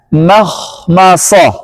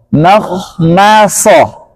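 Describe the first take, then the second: The two takes are said the same way.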